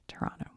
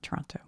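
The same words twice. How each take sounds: First: The second T is softened or dropped. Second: The second T is clearly pronounced. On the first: The speaker calls it right. "somebody corrected me" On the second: The speaker calls it wrong. "I overemphasized the second T"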